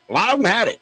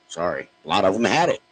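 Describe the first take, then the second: First: "A lot of them had it" repeated much higher and louder; emphatic repeat. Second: Said in the usual way. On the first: Real, not acted. Host doubling down on his claim, high and loud. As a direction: insist on it, pitch jumping up.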